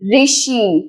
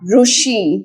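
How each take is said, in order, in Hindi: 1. पहला अक्षर 'ri' की तरह बोला जाता है। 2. पहला अक्षर 'ru' की तरह बोला जाता है। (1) "this is Rishi" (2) "not Rushi"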